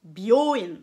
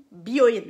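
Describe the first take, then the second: First: "byoin" loud, with the O drawn out; "byoin" as "bi-yooo-ine", long O; lengthened O. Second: "byoin" loud, with a brief O; "byoin" as a compact "bio-ine"; short O. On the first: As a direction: stretch the O in "byoin". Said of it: "vous faites un O allongé". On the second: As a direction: say "byoin" firmly, without lengthening the O. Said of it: "Byoin, ça veut dire, euh, l'hôpital". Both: Shown as a demonstration.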